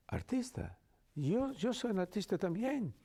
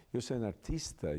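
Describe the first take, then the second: First: High-pitched excited guard imitation; much higher voice, imitating a delighted guard. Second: Said in the usual way. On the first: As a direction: mimic a guard thrilled to be an actor too. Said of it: "He said". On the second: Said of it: "finally I said".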